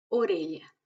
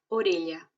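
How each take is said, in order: First: "orella" again with lh; initial O repeated. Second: "orella" with open o and lh; initial O. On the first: Teacher repeats the O example. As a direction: repeat "orella" o-reh-lya. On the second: Teacher shows initial O. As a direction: say "orella" as o-reh-lya. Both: Shown as a demonstration. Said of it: "Si la O está al principio".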